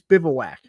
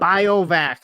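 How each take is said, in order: First: The word does not start with 'bio'. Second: The word starts with 'bio', as in biohazard. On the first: The speaker calls it right. "It's bi- it's bivouac, right?" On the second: The speaker calls it wrong. "You literally made something up"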